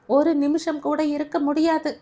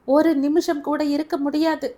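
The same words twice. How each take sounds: First: ஒரு நிமிஷம் raised high and loud; shouted refusal. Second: ஒரு நிமிஷம் shouted high and loud; tearful shout. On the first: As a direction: insist stubbornly. Grandmother repeats refusal. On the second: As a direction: hurl it out through tears. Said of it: "அழுது கொண்டே". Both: A narrator's reading.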